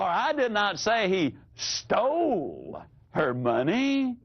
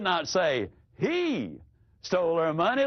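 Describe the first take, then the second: First: The stress is on "stole". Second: The stress is on "he".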